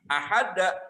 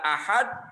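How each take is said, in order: First: The d is released with an added vowel sound. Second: The word ends cleanly on the d sound. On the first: "Itu karena makhrajnya tidak tepat" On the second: "membaca ahad"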